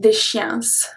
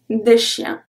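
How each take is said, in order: First: An s sound is pronounced at the end. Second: The final s is silent. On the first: The speaker calls it wrong. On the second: The speaker calls it right.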